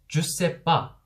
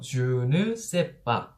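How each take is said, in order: First: The 'ne' is dropped, leaving three syllables. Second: It is said fully in four syllables. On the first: "느를 빼버립니다. ... 삼음절로 발음을 하는 거예요" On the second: "Je ne sais pas 라고 하는 사음절이 있습니다"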